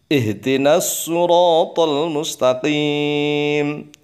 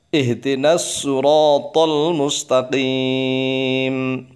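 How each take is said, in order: No difference in how they are said.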